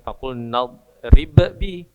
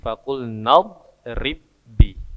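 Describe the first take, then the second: First: The first b is released with a bounce. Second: The two b sounds merge into one. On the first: The speaker calls it wrong. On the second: The speaker calls it right.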